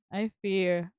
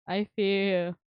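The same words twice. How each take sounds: The two takes are said the same way.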